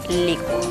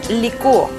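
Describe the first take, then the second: First: The ending '-cuo' is one syllable, a diphthong. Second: The ending '-cúo' is two syllables, a hiatus. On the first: It is not conjugated like actuar. The speaker calls it wrong. "y no licuo" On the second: It is conjugated like actuar. The speaker calls it right. "se conjuga como actuar"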